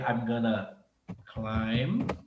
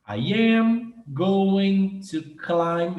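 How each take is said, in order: First: Going to is reduced to gonna. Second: Every word is said fully and separately. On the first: It is casual everyday speech. "gonna é o mesmo que going to, só que mais informal" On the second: It is very formal speech. "se você fosse falar assim, ó, bem formal"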